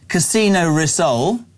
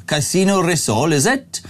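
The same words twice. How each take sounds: First: Said in the usual way. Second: Dodgy Welsh accent. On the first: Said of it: "Feel free to do your dodgy Wel-, Welsh accent". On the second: Shown as a demonstration. Radio host doing a listener's dare, dodgy Welsh accent. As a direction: put on a rough Welsh accent, rising on "is it?". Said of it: "Welsh accent".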